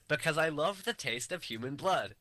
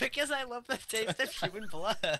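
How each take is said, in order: First: It is read plainly, without giggling. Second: It is said with a giggle.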